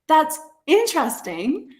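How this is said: The voice rises and sounds excited. The listener is genuinely pleased. "my intonation when I'm excited, I will go up"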